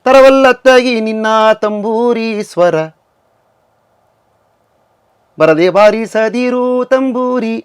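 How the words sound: The pause falls after the word swara. It joins the tune to the tambura in the first half. The speaker calls it wrong. "ತಂಬೂರಿ ಸ್ವರ ಆಗೋಯ್ತು"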